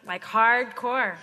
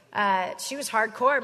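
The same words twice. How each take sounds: First: Hardcore drawn out slowly, both syllables leaned on; stretched-out hardcore. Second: Said in the usual way. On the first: Shown as a demonstration. Stretching hardcore to describe Deborah, slowly. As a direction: savor the word hardcore, slow and weighty. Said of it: "hard to the core".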